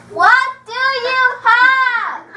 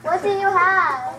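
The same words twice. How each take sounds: First: Slow, sing-song, every word stretched; drawn-out sing-song question; slow, drawn-out ask. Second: Said in the usual way. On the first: Acted. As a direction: spell it out slowly for a deaf waiter. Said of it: "talking in a nice indoor voice".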